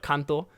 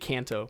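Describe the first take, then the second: First: It is said with a Japanese pronunciation. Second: It is said with an American English pronunciation. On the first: "but Kanto" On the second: "In American accent would be Kanto"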